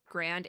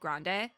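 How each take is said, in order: First: The word ends on the d, no final vowel. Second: The word ends with a sounded final vowel. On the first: The speaker calls it wrong. "said two different ways" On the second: The speaker calls it right. "I'm pretty sure it's grande though"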